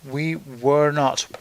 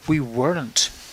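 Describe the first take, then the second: First: Each word is said fully and separately. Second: The words are run quickly together, contracted.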